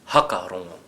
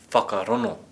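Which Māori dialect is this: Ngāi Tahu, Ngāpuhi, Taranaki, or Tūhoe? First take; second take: Ngāpuhi; Tūhoe. First: The opening 'wh' is said as an 'h'. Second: The 'ng' sound is replaced by an 'n'. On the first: "And how would Ngāpuhi say it?" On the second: "If we were from Tūhoe"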